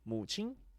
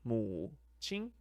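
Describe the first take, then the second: First: The word is said quickly. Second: The word is said slowly and deliberately.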